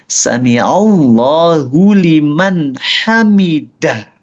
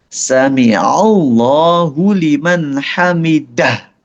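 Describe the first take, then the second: The two takes are said the same way.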